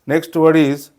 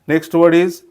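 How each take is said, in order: The two takes are said the same way.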